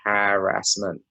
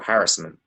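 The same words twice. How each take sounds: First: The word is split into three distinct syllables. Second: The word's syllables are run together. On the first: The speaker calls it right. "I break it down in like three syllables" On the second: The speaker calls it wrong. "on the news, they're saying"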